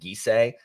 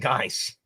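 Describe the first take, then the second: First: The name is said with two syllables. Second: The name is one syllable, rhyming with rice. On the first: This is how the audiobook narrator says it. The speaker calls it wrong. "the narrator pronounces it Gisei" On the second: This is how the speaker thinks it should be said. The speaker calls it right. "It's rice and Geist"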